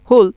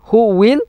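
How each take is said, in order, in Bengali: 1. এটি একটি সংকুচিত সিলেবলে চেপে বলা হয়। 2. এটি দুটি পূর্ণ শব্দ হিসেবে বলা হয়। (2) "হু উইলের কি হইবেন"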